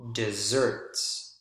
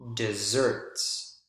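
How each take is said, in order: First: The stress is on the second syllable. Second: The stress is on the second syllable.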